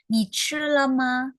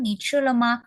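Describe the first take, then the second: First: "Ni chi le ma?" said slowly and higher, each syllable spaced; slow teaching take. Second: Said in the usual way. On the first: Shown as a demonstration. Teacher models the question to students, slow and higher. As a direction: spell out "Ni chi le ma?" slowly for learners. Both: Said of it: "Aku udah coba".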